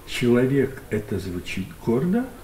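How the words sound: It is said as a question, rising. It is asked with doubt.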